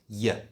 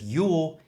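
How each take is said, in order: First: The word has a reduced schwa vowel. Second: The word has a full vowel. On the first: "it becomes y" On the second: "instead of your"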